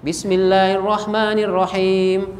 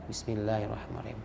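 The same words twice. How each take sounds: First: The phrase is recited aloud and clearly. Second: The phrase is recited quietly, barely audible. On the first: The basmalah is recited audibly to others. "Bismillahnya itu dijaharkan" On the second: The basmalah is recited silently to oneself. "berarti dia bismillah tapi disirkan"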